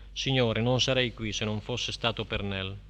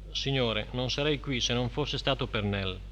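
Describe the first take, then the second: No difference in how they are said.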